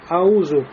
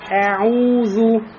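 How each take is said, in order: First: The throat consonant is dropped, sounding soft. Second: The throat consonant is clearly pronounced. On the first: The speaker calls it wrong. "Как будто айн не произнесен, и вместо хамза выходит просто... словно алиф" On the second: The speaker calls it right. "Значит, аузу"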